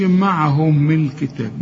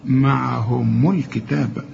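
First: معهم الكتاب with the meem not given its u vowel; wrong vowel on meem. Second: معهم الكتاب slowly, meem linked with a clear u. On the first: Teacher mimics the mistaken معهم الكتاب. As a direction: imitate the student's wrong linking. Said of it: "ما تقولش معهم الكتاب". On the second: Teacher models the correct meem with damma. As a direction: spell out "maʕhumu lkitab" carefully. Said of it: "الميم هنا مضمومة". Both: Shown as a demonstration.

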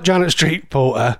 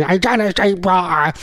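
First: Said in the usual way. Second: Hammed-up caricature voice; Janet Street Porter. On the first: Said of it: "that's not Janet Street Porter". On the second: Radio host demonstrating an impression on air, caricature voice. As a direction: do a short, exaggerated celebrity impression. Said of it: "do my best to do an impression".

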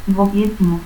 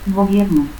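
First: Gobierno as "gobietnu". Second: Said in the usual way. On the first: Shown as a demonstration. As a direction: stop for R in Gobierno. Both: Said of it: "confusión de R y T al final de sílaba".

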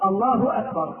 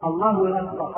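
First: Short u on "الله", clean hamza on "أكبر"; correct takbir. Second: "الله" glides by a w into "أكبر": "Allaahu-wakbar"; wrong takbir. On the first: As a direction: separate "الله" and "أكبر" without any w. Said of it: "والصواب أن يقول". (تكبير صحيح بضم الهاء) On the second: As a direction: insert a w before "أكبر". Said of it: "هذا خطأ". (تكبير خاطئ بواو زائدة) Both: Shown as a demonstration.

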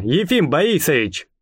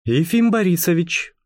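First: «Борисович» with the R swallowed and burred in the throat; картавый голос. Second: Said in the usual way. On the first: Acted. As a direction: say «Ефим Борисович» with a throaty, barely there R. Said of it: "сказал он своим картавым голосом". («Борисович» картаво, «р» почти не слышно) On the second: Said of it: "картавым голосом".

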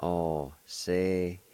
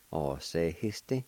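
First: Alcehiste drawn out, syllables evenly spaced; measured teaching pronunciation; slow syllable demo. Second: Said in the usual way. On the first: Shown as a demonstration. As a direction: say it slowly, part by part. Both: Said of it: "It's pronounced like this".

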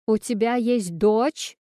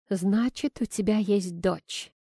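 First: Slow, disbelieving question rising at the end; incredulous question. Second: Slow, restrained, mildly irritated statement; poorly hidden irritation. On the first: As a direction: ask again as if you can't believe it. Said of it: "переспросила она". (недоверчивый переспрос) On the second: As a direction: state it slowly, holding back annoyance. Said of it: "с плохо скрываемым раздражением". (сдержанное раздражение, без вопроса) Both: A narrator's reading.

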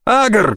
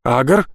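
First: Высокий громкий окрик по имени; выкрикнуть имя в испуге; крик. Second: Тревожный вопросительный зов; встревоженно окликнуть по имени; обеспокоенно. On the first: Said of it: "крикнул его сосед". (громкий крик, выше обычного) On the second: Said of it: "обеспокоенно позвал". (обеспокоенный зов с подъёмом в конце) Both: Acted.

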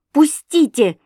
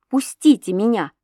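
First: Пустите cried high and loud; a sudden high, loud plea; pleading cry. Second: Said in the usual way. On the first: A narrator's reading. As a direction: fling out a desperate Пустите. She begs to leave. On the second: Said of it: "сказала я".

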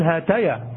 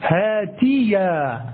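First: هاتيا said as "hataya", fatha on the ta; هاتيا with an open a after the t, the warned-against form; wrong vowel. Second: هاتيا said slowly as "haa-ti-ya", kasra on the ta; drawn-out هاتيا with a clear i after the t; teacher stretches هاتيا as hatiya, slowly; correct vowel. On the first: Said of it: "إياك أن تقول". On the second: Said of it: "لا". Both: Shown as a demonstration.

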